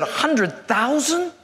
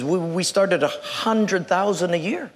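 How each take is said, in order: First: Slow, rising disbelief; astonished. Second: Put-on lower, lightly stuttered old man; a hint of halting old-man stammer; shaking elderly man. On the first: Acted. New hire hears the salary, astonished. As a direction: stretch it into a stunned question. Job seeker stunned by the salary. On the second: Old boss names the salary, mild stammer. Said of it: "this man is kind of shaking".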